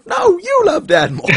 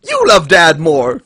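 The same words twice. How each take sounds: First: Very high, loud squeaky comeback; hammed-up falsetto bickering; mock retort. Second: Put-on loud, high childish accusation; hammed-up bickering shout; mock argument. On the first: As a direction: shriek it back like a squabbling kid. Acted retort between kids. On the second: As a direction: fling it at a sibling, loudly. Acted argument between kids.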